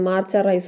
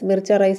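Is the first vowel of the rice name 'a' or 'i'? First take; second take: a; i. First: The first vowel of the name sounds like 'ah'. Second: The first vowel of the name sounds like 'ee'. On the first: "മാർച്ച rice എന്നും പറയാം" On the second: "മിർച്ച rice എന്ന് മാത്രമല്ല"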